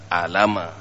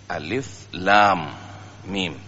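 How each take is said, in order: First: The letters are run together as short syllables. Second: Each letter is spoken by its full name. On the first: The speaker calls it wrong. "bukan alama" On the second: The speaker calls it right. "Kemudian dikembalikan kepada ejaan, ejaan Arabnya"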